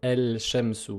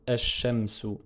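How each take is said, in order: First: The l is pronounced clearly before the sh. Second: The l is dropped and the sh is doubled. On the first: The speaker calls it wrong. "On ne peut pas prononcer el-shamsu" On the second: The speaker calls it right. "on dit esh-shamsu"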